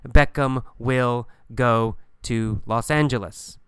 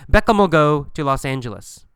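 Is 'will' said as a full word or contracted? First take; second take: full; contracted. First: The word will is said in full. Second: Will is reduced to 'll on the name. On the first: "in a textbook, you will see" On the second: "But we say Beckham'll"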